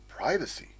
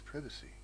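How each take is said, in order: First: It is said the American way. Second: It is said the British way.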